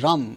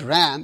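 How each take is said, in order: First: The vowel sounds like the one in 'rum'. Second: The vowel sounds like the one in 'ram'. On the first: The speaker calls it right. "it's pronounced as Ram, R-U-M" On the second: The speaker calls it wrong. "it's pronounced not Ram"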